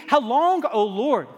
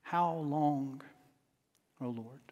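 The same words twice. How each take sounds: First: Rising cry. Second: Much softer and lower, almost fading away; hushed lament. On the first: Preacher crying out to God for a congregation, climbing plea. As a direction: lift it up, a cry that will not give up. Preacher builds a repeated lament. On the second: Preacher closing the lament before the congregation, hushed and spent. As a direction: let it sink to a spent, quiet plea. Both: Acted.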